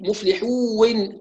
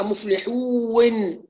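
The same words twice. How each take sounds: First: مفلحون stretched as مفلحوون with a second و; extra waw glide. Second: Slow مفلحون with an extra وِ glide before ن; wrong added waw. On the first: Teacher mocking the doubled waw mistake. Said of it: "كأنه يأتي بواو أخرى". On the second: Teacher imitating a student who adds a waw. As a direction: show the stray waw in مفلحون. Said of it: "شفتوا دي". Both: Shown as a demonstration.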